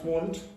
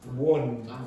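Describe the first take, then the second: First: The word ends with a t sound. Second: The word ends without a t sound. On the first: The speaker calls it wrong. "Not want" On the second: The speaker calls it right.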